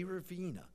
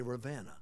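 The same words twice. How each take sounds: First: Ravenna with a long ee, "ra-VEE-na"; mispronounced Ravenna. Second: Ravenna with a short e, "ra-VEN-na"; corrected pronunciation. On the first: Preacher recalls being corrected on the town's name, Ravenna said as ra-VEE-na. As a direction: say Ravenna with the middle vowel as in "seen". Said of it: "Don't say Ravenna". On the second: Preacher gives the locals' correction, Ravenna said as ra-VEN-na. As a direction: say Ravenna with the middle vowel as in "ten". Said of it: "say Ravenna". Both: Shown as a demonstration.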